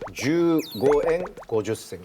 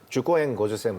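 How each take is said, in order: First: Some vowels are held long. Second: The vowels are kept short throughout. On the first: The speaker calls it right. "이렇게 돼요" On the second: The speaker calls it wrong. "말 아니고"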